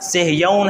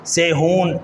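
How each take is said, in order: First: The name has a y glide: Sah-yoon. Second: The name has no y glide: Se-hoon. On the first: The speaker calls it right. "जबकि ये लफ्ज़ सेहयौन है" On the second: The speaker calls it wrong. "सेहून ये पढ़ा जाता है, जबकि ये गलत है"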